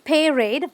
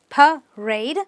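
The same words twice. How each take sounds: First: The first A sounds like the letter A. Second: The second A sounds like the letter A. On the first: The speaker calls it wrong. "Not parade" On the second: The speaker calls it right. "but parade"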